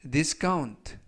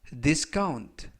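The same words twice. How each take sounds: Both takes have the same delivery.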